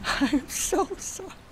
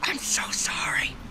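First: Much higher, slow, laughing through it; laughing apology. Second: Slow hushed whisper. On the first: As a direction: giggle the apology out. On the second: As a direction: breathe the apology, voiceless. Apologizing after sheep dies. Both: Real, not acted.

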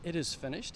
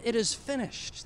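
First: Said in the usual way. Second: Slow, weighty and a little higher; solemn last words. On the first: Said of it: "That's a strange thing to say when you die". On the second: Retold or imitated. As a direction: lay out each word slowly like last words. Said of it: "He said".

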